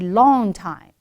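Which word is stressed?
long. The stress falls on the word long. The speaker calls it right. "For a long time"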